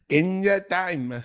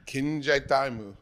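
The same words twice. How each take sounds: First: It is said in an imitated anime-girl voice. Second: It is said in his normal voice.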